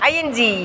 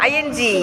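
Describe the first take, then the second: No difference in how they are said.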